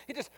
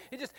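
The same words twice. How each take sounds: The two takes are said the same way.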